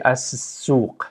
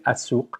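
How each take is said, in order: First: "as-suq" slowed, the s doubled and drawn out; s pronounced twice. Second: Said in the usual way. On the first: Shown as a demonstration. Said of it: "you kind of pronounce it twice". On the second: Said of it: "Instead of saying as-suq".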